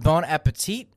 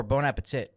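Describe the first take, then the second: First: Bon appetit with a long "ee" ending; pronunciation query. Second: Bon appetit with a short "i" ending; alternative pronunciation. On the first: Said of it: "Is it pronounced bon appetit or". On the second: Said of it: "or bon appetit?". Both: Shown as a demonstration.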